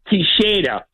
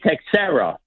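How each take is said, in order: First: The name is said with Portuguese pronunciation. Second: The name is said with American pronunciation. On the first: "In Portugal, you say it Teixeira" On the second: "In America, you say Texera"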